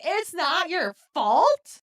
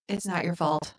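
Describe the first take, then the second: First: High, slow, drawn-out disbelief; stretched out and pitched way up, appalled; incredulous echo. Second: Said in the usual way. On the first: Retold or imitated. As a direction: throw it back as a stunned question. Repeats the line in disbelief. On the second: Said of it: "Joe's like".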